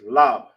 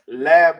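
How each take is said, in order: First: The vowel is a Hebrew-style 'o' sound. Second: The vowel is an English-style 'a' sound. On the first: The speaker calls it right. "It's lob" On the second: The speaker calls it wrong. "It's not lab like in English"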